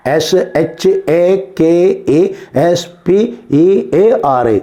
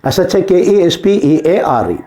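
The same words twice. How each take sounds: First: Letter by letter with gaps; slow, separated dictation of each letter; slow spelling. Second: Said in the usual way. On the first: Shown as a demonstration. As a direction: spell it out slowly for pupils writing it down. Repeats spelling slowly for writers.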